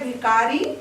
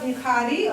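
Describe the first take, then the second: First: The middle consonant is a plain unaspirated 'k'. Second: The middle consonant is an aspirated 'kh'. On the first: "बोल रही है" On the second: "क्यों लिखा इसने ऐसा"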